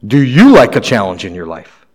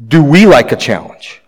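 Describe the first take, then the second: First: Emphasis on "you", lower toward the end; stress on YOU. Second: Emphasis on "we", then let the question fall; stress on WE. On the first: Preacher turns the question on each listener, stressing "you". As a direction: lean on "you", the rest dropping away. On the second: Preacher asks the congregation about all of us, stressing "we". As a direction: lean on "we" in the question. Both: Real, not acted.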